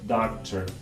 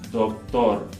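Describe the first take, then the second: First: The D and T are made behind the teeth. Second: The D and T are made against the teeth. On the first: "in English, we're going to pronounce it by placing the tongue in a different place" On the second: "in Spanish, the D and the T in this word are both going to be dental against the top two teeth"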